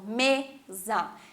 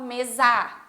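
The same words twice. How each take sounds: First: The stress is on the first syllable. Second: The stress is on the last syllable. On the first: The speaker calls it right. "me, é a mais forte" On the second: The speaker calls it wrong. "eu não falo mesa ... Eu não puxo A"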